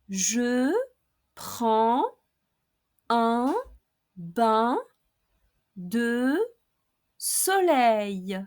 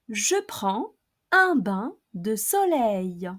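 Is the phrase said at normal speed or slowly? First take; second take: slowly; normal speed. First: The phrase is spoken slowly. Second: The phrase is spoken at normal speed. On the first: "I'll pronounce each expression slowly, first twice" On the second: "then at normal speed"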